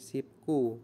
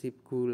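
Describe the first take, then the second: First: The second syllable starts with a tense k sound. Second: The second syllable starts with a soft g sound. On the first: The speaker calls it right. "menjadi sipku" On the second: The speaker calls it wrong. "Bukan sipgu lagi"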